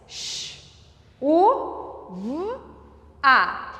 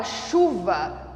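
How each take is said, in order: First: "Sh, u, v, a" as four separate sounds with long pauses; phoneme by phoneme. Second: Said in the usual way. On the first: Shown as a demonstration. Teacher counting the phonemes in chuva, sounded out one by one. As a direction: sound out each of "Sh, u, v, a" alone. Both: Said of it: "nós temos quatro fonemas".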